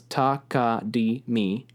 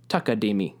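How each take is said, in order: First: Syllable by syllable; slow takadimi. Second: Takadimi quick within one beat; fast takadimi. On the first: Teacher slowly showing the four syllables. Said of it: "So it goes". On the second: Teacher showing takadimi at real speed. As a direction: zip through takadimi. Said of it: "they go pretty fast". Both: Shown as a demonstration.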